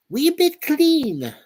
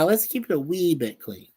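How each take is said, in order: First: High, slow mock Scottish lilt; mock Scottish accent. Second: Said in the usual way. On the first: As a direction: stretch it out high in a put-on Scottish voice. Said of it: "Not my best accent".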